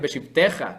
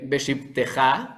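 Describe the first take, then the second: First: The stress is on the second-to-last syllable. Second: The stress is on the last syllable. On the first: The speaker calls it wrong. "con el acento en la tav" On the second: The speaker calls it right. "con el acento en la ja"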